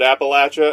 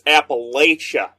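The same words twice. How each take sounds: First: It is pronounced the way locals say it. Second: It is pronounced the way outsiders say it. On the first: The speaker calls it right. "the people from Appalachia pronounce it Appalachia" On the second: The speaker calls it wrong. "anywhere else is like it's Appalachia"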